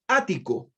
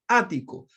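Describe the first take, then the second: First: Said in the usual way. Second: Ático with the first A clearly stressed and a little louder; ÁH-ti-co, weight on the first syllable. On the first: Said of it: "así tal cual". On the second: Shown as a demonstration. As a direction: say ático hitting the opening Á. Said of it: "con acento en la A".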